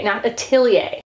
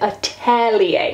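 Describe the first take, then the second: First: "atelier" said as "a-TILL-ee-ay", with I as in "till"; "atelier" with the wrong I sound in the middle. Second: "Atelier" said slowly as "a-TELL-ee-ay"; right atelier. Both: Shown as a demonstration. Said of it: "but that's an E, not an I".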